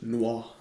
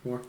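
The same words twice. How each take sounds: First: It is said with a French accent. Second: It is said with a plain English accent.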